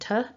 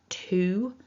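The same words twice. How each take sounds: First: The word has a weak, reduced vowel. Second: The word has a full, strong vowel. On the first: "rather than to" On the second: "strengthening this word, so using that to"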